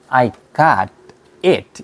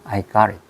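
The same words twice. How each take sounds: First: The t in got is a clear t. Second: The t in got sounds like r. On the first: The speaker calls it wrong. "이렇게 하는 게 아니고" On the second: The speaker calls it right. "이때 R 발음이 나온다고요"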